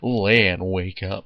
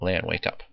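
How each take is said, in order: First: It is said in a surfer-dude voice. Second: It is said in a normal voice.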